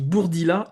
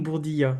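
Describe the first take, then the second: First: The name has a clear L sound before the end. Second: The name has a Y-like sound before the end. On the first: The speaker calls it right. "on dit Bourdila" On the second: The speaker calls it wrong. "et non Bourdilla"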